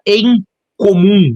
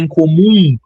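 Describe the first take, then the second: First: The first vowel is a clear 'eh' sound. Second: The first vowel sounds like 'ee', as 'incomum'. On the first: "vou redizer" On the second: "A gente acaba pronunciando no Brasil incomum"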